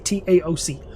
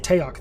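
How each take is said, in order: First: Each letter of the acronym is spoken separately. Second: The acronym is spoken as a single word. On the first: This is how the Air Force says it. "They say" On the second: This is how Marines say it. "we say"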